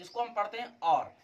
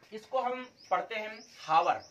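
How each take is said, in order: First: और said with a silent h, like "our"; teacher giving the right sound, और without h; correct reading our. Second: हावर said with a sounded h, ha-war; teacher demonstrating the mispronunciation हावर with h; wrong reading hawar. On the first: Teacher showing students the correct way, saying और with silent h. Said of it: "इसका शुद्ध pronunciation होता है आर". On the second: Teacher showing students the wrong way, saying हावर with h. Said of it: "अब हावर नहीं पढ़ते". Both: Shown as a demonstration.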